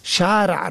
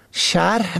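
First: Said in the usual way. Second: شرح with an audible h before a silent end; the wrong reading شرح, h replacing ain; ain misread as he. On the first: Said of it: "باید هر کدام را در مخرج خود تلفظ". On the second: Shown as a demonstration. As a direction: say شرح as sharh, with a breathed h.

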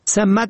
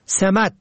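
First: سمت said "samt"; fatha then sukun. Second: سمت said "semat"; short e then a in سمت; kasra then fatha. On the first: Teacher shows سمت for "direction", pronounced samt. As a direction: open a, held m in سمت. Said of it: "به فتح اول و سکون دوم". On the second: Teacher shows سمت for "position", pronounced semat. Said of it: "به کسر اول و فتح دوم". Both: Shown as a demonstration.

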